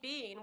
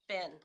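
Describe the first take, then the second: First: The vowel is a long 'ee' sound. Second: The vowel is a short 'i' sound. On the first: The speaker calls it wrong. "you say bean, where have you been? You get the water pistol" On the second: The speaker calls it right. "we're going to pronounce it B I N, bin, always"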